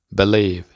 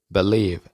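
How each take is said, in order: Both takes have the same delivery.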